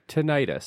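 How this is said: The word is said the American way. This is how Americans and laypeople say it. "the American and layperson pronunciation often sounds like"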